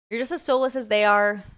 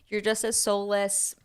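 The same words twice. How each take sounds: First: Louder, hitting soulless hard; louder emphatic reread. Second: Said in the usual way. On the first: Shown as a demonstration. Rereading the tweet to chat, louder and emphatic. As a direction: punch it out the second time. Reading a tweet aloud, twice.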